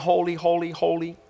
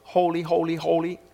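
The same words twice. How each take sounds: First: The words are said in a flat, mechanical drone. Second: The same.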